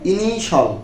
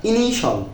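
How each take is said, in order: First: The ending is one syllable, 'shal'. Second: The same.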